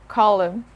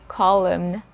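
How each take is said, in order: Both takes have the same delivery.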